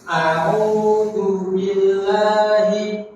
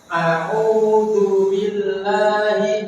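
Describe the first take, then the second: The two takes are said the same way.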